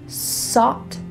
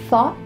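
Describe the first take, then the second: First: The word begins with an s sound. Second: The word begins with a th sound. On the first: The speaker calls it wrong. "switching an S and a T H sound, sought" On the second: The speaker calls it right. "instead of thought"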